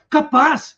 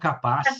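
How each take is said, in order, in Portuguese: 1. A palavra soa surpresa. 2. A palavra soa incrédula e desdenhosa. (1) "estou surpreso" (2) "é louco de perguntar qual é?"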